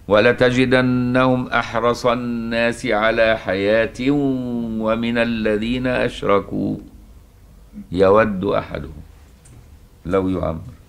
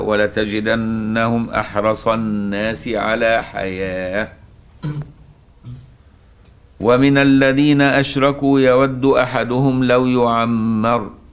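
First: The pause comes after the word ashraku. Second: The pause comes after the word hayah. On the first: Those who associate partners are part of the comparison. "الطريقة الثانية" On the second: Those who associate partners begin a new statement. "نقراها بطريقة الأولى"

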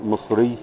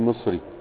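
First: The final ya is doubled and held. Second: The final ya is short and light. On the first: This is the original standard form. "ولكن هي الاصل مصري" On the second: This is the everyday colloquial form. "في الكلام المعتاد نحن نخففها"

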